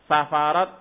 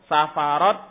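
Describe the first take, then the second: No difference in how they are said.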